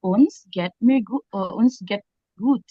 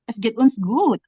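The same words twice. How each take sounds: First: Slow take that slips to "Uns geht mir gu-" before fixing it; mistaken phrasing. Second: Said in the usual way. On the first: Shown as a demonstration. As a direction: stumble through the wrong version slowly. (ucapan keliru yang pelan dan tersendat) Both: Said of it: "Oh my God, aku lupa".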